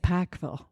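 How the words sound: The name is said in the Pikeville accent. This is how people in that town say it. "they say Pikeville. So it's very regionally specific"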